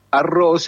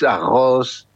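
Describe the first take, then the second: First: Said in the usual way. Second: "arroz" with the R said like a Spanish J; R como J. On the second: Shown as a demonstration. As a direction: say "arroz" Brazilian-style, throaty J sound for R. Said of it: "la R se pronuncia como una J". ("arroz" con la erre pronunciada como jota)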